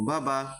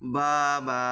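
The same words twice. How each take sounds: First: The vowels are said quickly and kept short. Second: The vowels are stretched out and drawn long. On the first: The speaker calls it right. "আমি উচ্চারণগুলো তাড়াতাড়ি করেছি, আমি কিন্তু কোনো টানাটানি করি নাই।" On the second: The speaker calls it wrong. "এরকম ভাবে যদি আমি পড়তাম তাহলে হরকতের উচ্চারণ যে তাড়াতাড়ি করা সেটা কিন্তু হতো না।"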